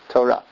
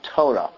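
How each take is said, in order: First: The stress is on the last syllable. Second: The stress is on the first syllable. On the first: The speaker calls it right. "it's emphasized at the end of the word" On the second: The speaker calls it wrong. "the accurate pronunciation is not Torah"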